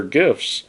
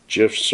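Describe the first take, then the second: First: "gifs" with a hard G, as in gift; hard-G pronunciation. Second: "gifs" with a soft G, like J; soft-G pronunciation. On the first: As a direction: say "gifs" starting like "give". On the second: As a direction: say "gifs" as "jifs". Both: Shown as a demonstration. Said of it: "gifs or gifs".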